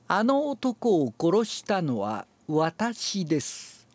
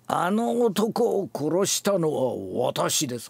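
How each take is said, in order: First: It is read smoothly with raised pitch accents. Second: It is read forcefully with strong, sinking emphasis. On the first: "アナウンス風に読むと" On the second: "言葉が強いんです"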